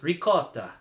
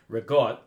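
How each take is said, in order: First: It is said in an Italian accent. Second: It is said in an Italian American accent.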